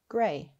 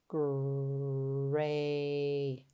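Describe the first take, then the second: First: The word is said quickly as one unit. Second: The sounds are drawn out slowly and separately. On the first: "Say it fast" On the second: "Tap and stretch"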